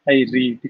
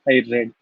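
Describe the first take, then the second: First: Read is said with its present-tense pronunciation. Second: Read is said with its past-tense pronunciation. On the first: The reading happens habitually now. "In the first case, it is I read" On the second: The reading happened in the past. "whereas in the second case, I read"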